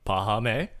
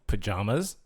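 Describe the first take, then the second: First: It is said with an H sound, no final S. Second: It is said like the word for sleepwear. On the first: The name is said the way the family intends. The speaker calls it right. "they pronounced it pahame" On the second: The name is read straight from its spelling. The speaker calls it wrong. "it's spelt pajamas"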